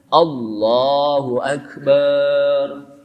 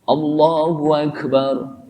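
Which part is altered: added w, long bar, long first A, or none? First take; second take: long bar; added w. First: The final syllable bar is drawn out long. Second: A w sound is inserted before Akbar. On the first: It makes the phrase mean Allah is a drum. "tidak boleh barnya dipanjangin" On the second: It means Allah and the Great One. "tidak boleh diselahi dengan wawu di tengah-tengah"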